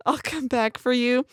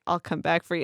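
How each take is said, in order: First: Said in the usual way. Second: Soft, softer tender promise; quietly choked up, holding back tears; emotional. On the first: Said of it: "when Jade says". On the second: Retold or imitated. Jade promising her partner softly, emotional. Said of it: "her voice is so emotional".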